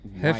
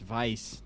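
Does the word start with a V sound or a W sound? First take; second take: W sound; V sound. First: The word starts with a W sound. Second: The word starts with a V sound. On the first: This is an anglicized way to say it. The speaker calls it wrong. "not Weiss" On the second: This is the proper German way to say it. The speaker calls it right. "You got to get the German beer terminology right. It's Weiss"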